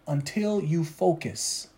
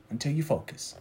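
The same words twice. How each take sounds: First: Soft, slow "until you focus"; slow, hushed "until you focus"; quiet emphasis. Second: Soft, low "Until you focus."; quiet low echo of "Until you focus."; hushed echo. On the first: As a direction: drop the voice to drive it home. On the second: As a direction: let it fall almost to a murmur. Softer echo of the line. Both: Acted.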